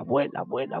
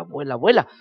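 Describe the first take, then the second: First: Said in the usual way. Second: "vuela, vuela" pushed louder with a lift at the end; loud rising "vuela"; rising emphasis. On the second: Shown as a demonstration. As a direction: send the second "vuela" up and away. Bubble floating away, repeated.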